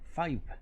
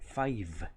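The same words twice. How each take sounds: First: The v is made by pressing both lips together. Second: The v is made with teeth on the lower lip. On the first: The speaker calls it wrong. "no se pronuncia five" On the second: The speaker calls it right. "se pronuncia five, como si terminara con un muy suave sonido de F"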